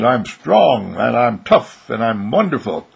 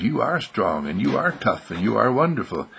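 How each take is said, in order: First: Put-on loud, emphatic boyish self-praise; proud boy. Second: Gentle, measured confirmation; reassuring affirmation. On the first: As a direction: declare each virtue with force. Arnold proudly quotes his voice. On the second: Acted. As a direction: affirm each virtue kindly, without force. Wesley affirms Arnold's words back.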